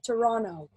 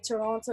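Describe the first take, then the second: First: The second T is dropped entirely. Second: The second T is clearly pronounced. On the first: This is how a local says it. The speaker calls it right. "you say it like Toronto, without the T" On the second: This is how someone not from the city says it. The speaker calls it wrong. "you don't say Toronto like Toronto"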